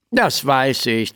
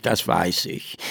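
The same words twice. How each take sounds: First: Said in the usual way. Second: Softer, lower, muttered to himself; quieter repeat. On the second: A narrator's reading. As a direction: drop it as an aside. (leiser, vor sich hin gemurmelt)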